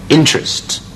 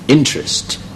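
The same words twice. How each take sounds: The two takes are said the same way.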